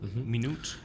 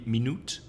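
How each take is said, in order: First: The written U is not sounded in the second syllable. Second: The written U is sounded in the second syllable. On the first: The speaker calls it right. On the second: The speaker calls it wrong.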